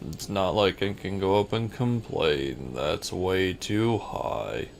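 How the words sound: It is said in a gloomy Eeyore voice.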